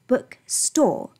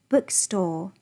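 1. 重音在store上。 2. 重音在book上。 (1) "而不是bookstore。如果你这样去念的话就非常不自然" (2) "比方说书店我们应该怎么说？"

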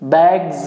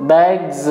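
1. यह शब्द भनभनाती हुई z ध्वनि से खत्म होता है। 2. यह शब्द भनभनाती हुई z ध्वनि से खत्म होता है।

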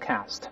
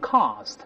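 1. 这是用美式口音读的。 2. 这是用英式口音读的。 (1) "美音中读成cast" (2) "英国人读成cast"

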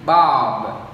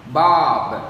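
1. Âm cuối được giảm nhẹ và bật nhẹ nhàng. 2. Âm cuối được giảm nhẹ và bật nhẹ nhàng.

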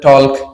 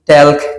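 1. এতে O স্বরধ্বনি আর L আছে। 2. এতে E স্বরধ্বনি আর L আছে। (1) "কেউ বলেন টলক" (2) "কেউ বলেন টেলক"

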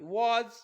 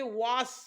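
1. हा शब्द z आवाजाने संपतो. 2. हा शब्द s आवाजाने संपतो. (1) "या ठिकाणी एसचा उच्चार हा ज आहे" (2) "या वॉज शब्दाला देखील ते वास वाचू शकतात"

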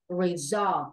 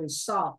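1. Phụ âm giữa là âm Z rung. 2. Phụ âm giữa là âm S xì. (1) "đây là âm Z" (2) "chứ không phải là resolve"

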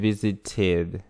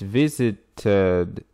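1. В последнем слоге краткий гласный 'uh'. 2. В последнем слоге полный гласный 'ed'. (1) "Или visited, э, ed. Краткий звук «э»" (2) "Можно сказать visited, ed, visited"

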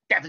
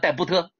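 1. b 不发音。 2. b 要作为一个单独的音节来发音。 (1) "debt 叫债嘛" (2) "没念好叫戴布特"

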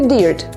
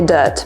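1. Ta samogłoska nie jest dźwiękiem 'er'. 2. Ta samogłoska to dźwięk 'er' ze słowa herb. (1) "bardzo dużo osób już mówi dirt" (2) "a nie dirt"

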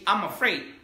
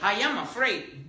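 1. "I am" se contrae en una sola sílaba. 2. "I am" se dice como dos palabras completas. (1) "comúnmente lo escuchas así" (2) "Comúnmente no escuchas que la persona dice"

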